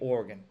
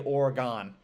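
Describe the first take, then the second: First: Oregon is said the local Oregon way. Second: Oregon is said in an upstate New York accent. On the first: The speaker calls it right. "I will say Oregon" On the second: The speaker calls it wrong. "that's my accent. That's my upstate New York accent"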